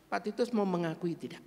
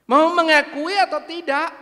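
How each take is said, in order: First: Said in the usual way. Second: Angry high shout. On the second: Retold or imitated. Church member furiously demands the pastor confess, shouting high. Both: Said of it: "Dia marah nadanya tinggi".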